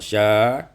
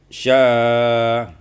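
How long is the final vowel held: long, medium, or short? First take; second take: short; medium. First: The final vowel is held short. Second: The final vowel is held medium length. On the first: "Yang pertama dibaca dengan qasar" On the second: "summa tawassut"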